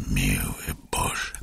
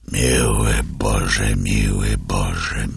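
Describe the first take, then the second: First: "miły Boże" whispered, slow and much softer; fading whisper. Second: Slow, grieving repetition of "Miły Boże"; slow lament. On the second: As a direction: drag out "Miły Boże" in sorrow. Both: A narrator's reading. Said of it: "powtarzał, kiwając głową".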